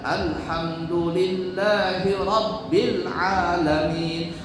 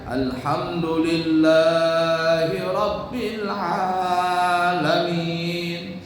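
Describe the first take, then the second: First: The vowels are kept short, one beat each. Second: The vowels are drawn out too long. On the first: The speaker calls it right. "Satu ketukan saja" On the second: The speaker calls it wrong. "Jangan dibaca"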